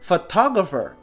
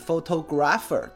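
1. 重音落在第二个音节。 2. 重音落在第一个音节。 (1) "这个词呢重音在后面，正确的念法是photographer。" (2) "可能会念错，念成是photographer，对吧？这是不对的。"

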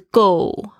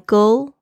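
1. 这个词以圆唇元音结尾，没有 L 音。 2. 这个词以清晰的 L 音结尾。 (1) "就只有圆嘴巴的话，就变成那个加油那个go" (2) "它的舌尖呢必须要顶在你的这个上排牙齿的这个后面"

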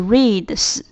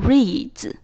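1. 最后的 d 和 s 音是分开的。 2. 最后的 d 和 s 混合成一个音。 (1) "而不是reads" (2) "加上s 会变成reads"

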